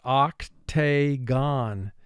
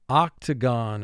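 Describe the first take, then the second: First: Each syllable is said with full, clear vowels. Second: It is said with the normal, relaxed vowels.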